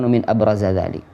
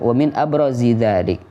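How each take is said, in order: First: The word abraz ends with an a vowel. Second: The word abraz ends with an i vowel. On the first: The speaker calls it wrong. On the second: The speaker calls it right. "harus kita baca jar"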